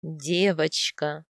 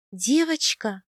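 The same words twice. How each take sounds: First: Low, slow husband's confirmation; drawn-out, lowered answer. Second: Said in the usual way. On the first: A narrator's reading. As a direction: confirm it slowly in a man's voice. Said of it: "ответил муж".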